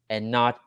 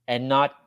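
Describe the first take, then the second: No difference in how they are said.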